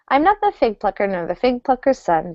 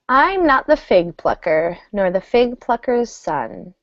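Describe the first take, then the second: First: It is said at a fast pace. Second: It is said at a slow pace. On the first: "try it faster" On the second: "it's very easy, slow"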